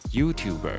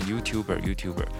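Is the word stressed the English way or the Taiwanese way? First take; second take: English; Taiwanese. First: The stress falls where English speakers put it. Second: The stress falls where Taiwanese speakers usually put it. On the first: The speaker calls it right. "在英文其实它正确的发音是YouTuber" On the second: The speaker calls it wrong. "在台湾我们很多人会念YouTuber"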